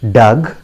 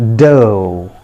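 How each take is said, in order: First: It ends with a g sound. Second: It ends in a long o vowel. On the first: The speaker calls it wrong. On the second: The speaker calls it right.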